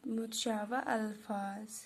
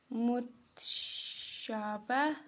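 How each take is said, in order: First: Said in the usual way. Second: मुतशाबा stretched syllable by syllable, very slow; drawn out slowly. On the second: Shown as a demonstration. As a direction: spell out मुतशाबा slowly for notes. (मुतशाबा को बहुत धीरे खींचकर बोलना) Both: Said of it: "ये आप notebook पे लिखना".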